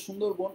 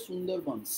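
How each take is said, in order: First: সুন্দরবন said as "Shundorbon"; sh at the start of সুন্দরবন, rounded o; Bengali pronunciation. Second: সুন্দরবনস said as "Sundarbans"; s at the start and end of সুন্দরবনস; English-style pronunciation. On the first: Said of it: "আমরা বাংলায় বলি". (বাংলা উচ্চারণে "সুন্দরবন", শ দিয়ে) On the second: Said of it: "ইংরেজিতে বলে". (ইংরেজি ধাঁচে "সুন্দরবনস", স দিয়ে) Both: Shown as a demonstration.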